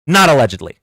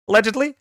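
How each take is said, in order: First: "not" punched louder, "allegedly" falling flat after it; stress on NOT. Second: "allegedly" tacked on with a wry, rising tune; sarcastic allegedly. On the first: Streamer contrasting supporters with Trump, punching "not". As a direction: hit "not" hard and let "allegedly" fall. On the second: Streamer mocking Trump's legal cover, wry rising hedge. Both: Shown as a demonstration.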